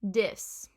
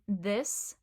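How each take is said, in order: First: It starts with a d sound. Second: It starts with a th sound.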